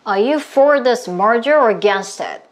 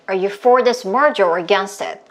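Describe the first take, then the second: First: The sentence is spoken somewhat faster. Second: The sentence is spoken at the fastest pace. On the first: "조금만 더 빠르게" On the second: "조금만 더 빠르게"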